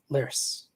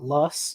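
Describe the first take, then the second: First: The vowel is a rounded er-like sound. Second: The vowel is a short open o sound. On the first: This is the original German pronunciation. "the original word is more like lers" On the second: This is the usual English pronunciation. "usually in English we call it loss"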